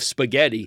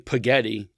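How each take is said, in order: First: The word is said with its standard sounds. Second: The word is said with garbled, childlike sounds. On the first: The speaker calls it right. "until he said it the correct way" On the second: The speaker calls it wrong. "if he were to say spaghetti instead of"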